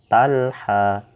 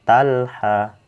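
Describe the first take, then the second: The two takes are said the same way.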